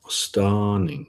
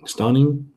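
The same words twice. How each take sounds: First: Stunning said slowly and carefully, testing the sound, ending on a settled fall; trying out stunning as the name; tentative pronunciation. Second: Stunning? lifted high as a doubtful question; questioning rise. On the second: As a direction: ask whether Stunning? is really right. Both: Shown as a demonstration. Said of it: "would you pronounce that stunning".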